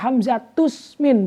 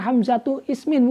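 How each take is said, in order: First: The words are linked, with the initial vowel dropped. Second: The second word keeps its initial vowel separately. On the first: The speaker calls it right. "maka dibaca hamzatus min" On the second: The speaker calls it wrong. "bukan hamzatu ismin, bukan"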